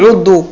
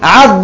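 First: The first vowel is u, as in 'u'. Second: The first vowel is a, as in 'a'. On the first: The speaker calls it wrong. "ولا تقول عض" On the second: The speaker calls it right. "فتقول الأمر في عض عض"

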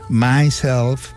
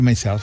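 First: My and self are said slowly, apart. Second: My and self are run together quickly. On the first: The speaker calls it right. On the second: The speaker calls it wrong.

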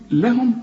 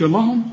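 First: The L sound is light and thin. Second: The L sound is heavy and thick. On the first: The speaker calls it right. "رقق" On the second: The speaker calls it wrong. "ما تقولش لهم"

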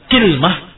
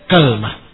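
First: Two syllables, with i first and no vowel after l. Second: Two syllables, with a first and no vowel after l. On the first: "dikasrahkan kafnya dengan disukunkan lamnya" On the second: "Difathahkan kafnya ... dengan disukunkan lamnya"

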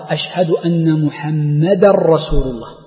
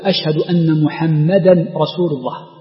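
First: The n merges into the r. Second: The n is heard before the r. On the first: The speaker calls it right. "يجب الإدغام ... لا تنطق التنوين" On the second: The speaker calls it wrong. "عدم إدغام التنوين في الراء"

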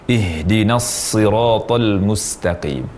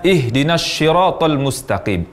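First: The first sound of siratal is a firm s. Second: The first sound of siratal sounds like sh. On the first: The speaker calls it right. "Yang benar, tanpa mengalihkan posisi huruf shad ke huruf yang lainnya atau huruf shin" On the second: The speaker calls it wrong. "mengucapkan huruf shad namun posisi lidah pada tempat huruf shin"

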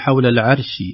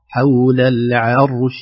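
First: The r sound is thin and light. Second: The r sound is heavy and full. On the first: The speaker calls it wrong. "ربما في العامية قد نرقق الراء" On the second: The speaker calls it right. "نرقق العين ونفخم الراء بدون قلقلة وبدون ترقيق"

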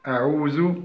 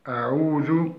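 Both takes have the same delivery.

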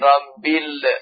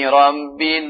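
First: The final l bounces into a short extra vowel. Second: The final l ends cleanly without a bounce. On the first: The speaker calls it wrong. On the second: The speaker calls it right.

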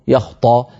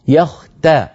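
First: The t sound is thick and emphatic. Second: The t sound is thin and plain. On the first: The speaker calls it wrong. "فانتبه إلى أن لا تفخم التاء، فلا تقول يختصمون" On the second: The speaker calls it right. "بتاء مرققة"

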